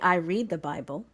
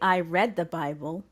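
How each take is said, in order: First: The vowel in 'read' is a long ee sound. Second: The vowel in 'read' is a short e sound. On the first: The reading happens now or habitually. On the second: The reading happened in the past.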